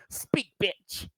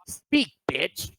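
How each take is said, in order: First: Softer, higher mean jab; mean retort. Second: Whispered mean jab at her. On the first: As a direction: toss off a cruel little line. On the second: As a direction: hiss it under your breath like a cold dig. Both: Retold or imitated. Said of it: "That sounded so mean".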